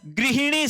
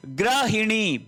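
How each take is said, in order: First: गृहिणी said "gri-hi-ni", with ri; correct pronunciation model. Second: गृहिणी said "gra-hi-ni", with ra for ri; wrong pronunciation demo. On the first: Teacher correcting the word for students, गृहिणी as "grihini". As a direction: put a clear ri after g in गृहिणी. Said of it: "गृहिणी शब्द होता है". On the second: Teacher showing students the error, गृहिणी as "grahini". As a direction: put an a after gr in गृहिणी. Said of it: "बिल्कुल गलत". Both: Shown as a demonstration.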